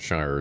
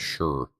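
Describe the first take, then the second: First: The vowel is a long 'eye' sound, like 'shyer'. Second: The vowel is reduced, sounding like 'sure'. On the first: The speaker calls it wrong. "Shire isn't Shire" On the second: The speaker calls it right. "It's sure"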